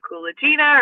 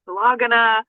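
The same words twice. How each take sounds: First: Kulagina as koo-luh-CHEE-nuh; name pronounced one way. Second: Kulagina as kuh-LAH-guh-nuh; alternative name pronunciation. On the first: Offering host one reading of psychic's surname, Kulagina as koo-luh-CHEE-nuh. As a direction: say Kulagina with a "chee" in place of "gi", stressed there. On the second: Unsure of psychic's surname, offering Kulagina as kuh-LAH-guh-nuh. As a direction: stress LAH in Kulagina, with a hard g after it. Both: Shown as a demonstration. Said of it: "not sure how people pronounce her last name".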